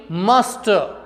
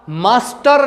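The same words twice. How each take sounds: First: मास्टर with silent final R; मास्टर ending on a vowel; correct pronunciation. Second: मास्टर with sounded final R; मास्टर in Indian pronunciation; wrong pronunciation. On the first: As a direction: say मास्टर as "masta". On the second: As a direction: say मास्टर with a clear R. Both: Shown as a demonstration. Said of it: "मास्टर नहीं".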